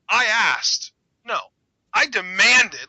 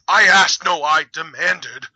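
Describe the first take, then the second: First: There are clear pauses between the phrases. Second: The words run together without pauses, flatly read.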